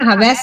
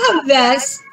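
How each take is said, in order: First: The first syllable is light and unstressed. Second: The first syllable is stressed and lengthened. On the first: The speaker calls it wrong. "आपण हव्यास नाही म्हणत" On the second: The speaker calls it right. "हव्यास म्हणताना हवर जोर येतो"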